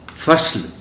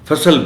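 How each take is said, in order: First: The s runs straight into the l. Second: A short vowel comes between s and l. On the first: The speaker calls it right. "दरमियानी हर्फ़ पर जज़्म होता है" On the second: The speaker calls it wrong. "फ़सल बोल दिया जाता है"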